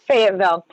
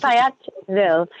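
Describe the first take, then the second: First: Said in the usual way. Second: Fayetteville in a put-on local accent; attempted local accent. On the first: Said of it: "I'm like, Fayetteville". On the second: Shown as a demonstration. Agent copying the accent she was told to use, put-on local accent. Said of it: "gotta say it with an accent".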